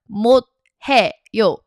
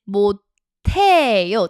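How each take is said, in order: First: Each syllable is said separately, without assimilation. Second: An aspirated t sound carries into the next syllable. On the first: "instead of 못해요" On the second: "There's a t carrying over because the s meets the h"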